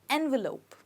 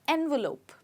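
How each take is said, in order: Both takes have the same delivery.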